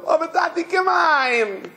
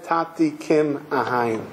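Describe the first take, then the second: First: High, imploring imitation of a child; pleading little boy. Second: Put-on low, slow recollection of a child's plea; solemn quoted plea. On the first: Boy begs his imprisoned father, pleading high. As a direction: cry it out high as a retold child's plea. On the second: Speaker recalls the child's words to father, solemn and hushed. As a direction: let each word fall slowly and low. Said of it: "when the child said".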